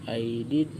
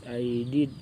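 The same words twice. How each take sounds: No difference in how they are said.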